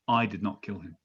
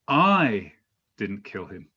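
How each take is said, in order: First: The stress is on "not". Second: The stress is on "I".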